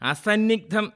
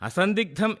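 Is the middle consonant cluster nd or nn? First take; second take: nn; nd. First: The middle cluster is pronounced with nn. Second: The middle cluster is pronounced with nd. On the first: The speaker calls it wrong. "ബഹുഭൂരിപക്ഷവും ഉച്ചരിക്കുന്നത്" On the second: The speaker calls it right. "ഉച്ചരിക്കേണ്ട വാക്ക്"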